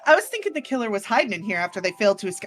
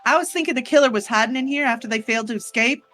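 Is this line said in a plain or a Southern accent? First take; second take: plain; Southern. First: It is said in a plain, unaccented voice. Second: It is said in a Southern American accent.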